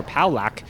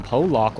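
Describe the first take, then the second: First: Palak said as POW-lack; flat A ending in "Palak", like lack; alternate name pronunciation. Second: Polak said as POH-lahk; long O then AH in "Polak"; alternate name pronunciation. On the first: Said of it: "version of the name you want to read". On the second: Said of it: "depending on what version of the name". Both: Shown as a demonstration.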